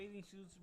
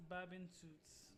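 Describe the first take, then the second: First: Said in the usual way. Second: Babin suits with a "b" for the "th"; old mispronunciation. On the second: Shown as a demonstration. Confessing a childhood mistake, Babin suits for bathing suits. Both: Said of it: "I used to call bathing suits".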